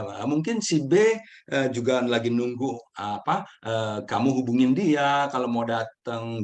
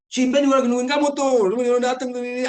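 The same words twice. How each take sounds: First: Said in the usual way. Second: Much higher and louder, nagging and reproachful; pushy, accusing tone. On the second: Shown as a demonstration. To friend A about B waiting, pushy accusing tone. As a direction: say it like you're blaming them for keeping B waiting. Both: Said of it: "kalau ada dua intonasi yang berbeda".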